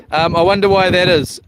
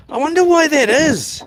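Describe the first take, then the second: First: Said in the usual way. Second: Mock puzzled. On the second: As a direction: play up the confusion, pitched up. Puzzled at missing dollar sign.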